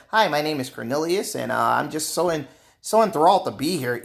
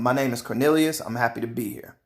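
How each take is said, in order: First: Lightly put-on proper, overly polite voice; a mild mock of a stiff, eager office voice. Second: Said in the usual way. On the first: Shown as a demonstration. [name] showing co-workers the voice he won't use, lightly proper. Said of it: "how I talk is how I'm not saying". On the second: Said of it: "that's me".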